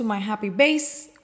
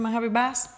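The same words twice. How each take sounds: First: "base" with the vowel of day; long A in base. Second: "bass" with the short vowel of cat. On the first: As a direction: say "base" with a long A, rhyming with face. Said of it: "But it's a base today". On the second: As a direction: say "bass" like the fish, rhyming with mass. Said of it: "would have been a fish-related collection". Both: Shown as a demonstration.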